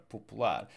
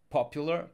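First: Popular in Portuguese, stressed on final LAR; stress on last syllable. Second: Said in the usual way. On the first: Shown as a demonstration. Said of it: "We stress the last syllable". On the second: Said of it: "here we have the A R on both sides".

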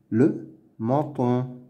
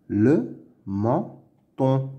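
First: Said in the usual way. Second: "Le menton" slowly as "le", "men", "ton"; syllable by syllable. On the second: Shown as a demonstration. Teacher sounding out words to read, "Le menton" in slow pieces. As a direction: pause after each syllable of "Le menton". Reading drill, split then blended.

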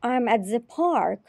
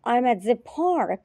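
No difference in how they are said.

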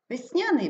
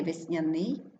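First: Весняний stressed on the middle syllable, вес-НЯ-ний; перший варіант наголосу. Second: Весняний stressed on the last syllable, весня-НИЙ; другий варіант наголосу. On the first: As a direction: lift НЯ in весняний. (весняний з наголосом на НЯ) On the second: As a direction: rise onto НИЙ in весняний. (весняний з наголосом на НИЙ) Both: Shown as a demonstration. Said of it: "слово з подвійним наголосом".

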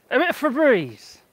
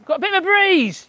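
First: Said in the usual way. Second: Higher, brighter call about the breeze; excited exclaim. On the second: Real, not acted. Showing the garden camera a gust, excited. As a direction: announce the gust with delight. Gust hits the greenhouse plastic.

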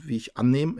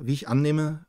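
First: Misread slip. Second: Said in the usual way. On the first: Real, not acted. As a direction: cut off mid-word. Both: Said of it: "äh, ich sehe Tara".

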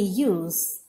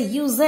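First: "use" as one syllable, lower in pitch; "use" as yooz, falling at the end; correct pronunciation. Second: "use" misread as two syllables, yoo-zay; "use" stretched into yu-zeh; wrong pronunciation. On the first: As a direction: say "use" with the final e silent. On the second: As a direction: sound the final e of "use" as -ay. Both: Shown as a demonstration. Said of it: "You don't say use".

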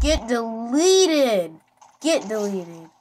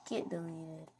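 First: Slow, loud, drawn-out taunt with DELETED dragged; mock-dramatic shouted taunt. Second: Soft, tossed-off muttered taunt; quiet offhand taunt; soft throwaway. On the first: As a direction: savour each word like a finishing blow. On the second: Pretend. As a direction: let it drop quietly, amused. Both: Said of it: "It's so funny saying that".

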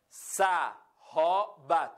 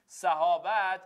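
First: صحابت very slowly as sa, ho, bat, with gaps; صحابت sounded out syllable by syllable; split into three syllables. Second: Said in the usual way. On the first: Shown as a demonstration. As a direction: break صحابت into three separate, punched beats. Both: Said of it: "سه تا بخش هم داره".

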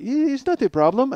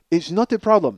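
First: Mock German politeness. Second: Said in the usual way. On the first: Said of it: "That was my favorite line". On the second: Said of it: "they were like".

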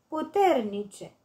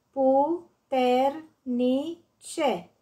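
First: Said in the usual way. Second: "Puternice" very slowly, pu-ter-ni-ce; syllable by syllable. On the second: Shown as a demonstration. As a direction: break "Puternice" into four spaced beats: pu, ter, ni, ce. („Puternice” despărțit rar în silabe: pu-ter-ni-ce) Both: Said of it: "Desparte în silabe cuvintele date".

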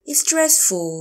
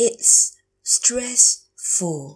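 First: Said in the usual way. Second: It's, pause, then "stress-ful" in parts; slow teacher model of "It's stressful"; slow, broken up. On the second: Shown as a demonstration. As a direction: split "stressful" slowly after "It's". Teacher repeats phrase slowly.

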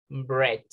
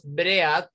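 First: Said in the usual way. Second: "bread" read as written, "BREH-at"; spelling pronunciation. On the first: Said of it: "pero pronunciamos bread". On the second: Shown as a demonstration. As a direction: sound both vowels of "bread", breh-at. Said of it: "Escribimos bread".

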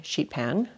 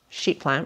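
First: "sheet pan" said correctly, without the l; "sheet pan" fixed after the slip "sheet plan"; corrected word. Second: "sheet plan" said with an l, as plan; "sheet plan" by mistake instead of "sheet pan"; slip of the tongue. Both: Real, not acted. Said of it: "pan, sorry".

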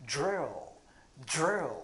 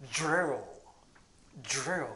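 First: "Drill" said the English way, dr as a curled ju. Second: "drill" said like Japanese ドリル, with an inserted vowel; "drill" said the katakana way, do-ri-ru. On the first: Teacher modelling the correct English "drill". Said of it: "でも英語はドリルじゃないんです". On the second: Teacher showing how Japanese speakers say "drill". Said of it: "ドリルって言ってますよね". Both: Shown as a demonstration.

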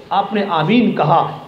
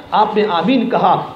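The two takes are said the same way.

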